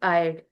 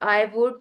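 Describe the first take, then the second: First: The words are merged into one short syllable. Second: Both words are said fully and separately. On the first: "contracted form" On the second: "full form"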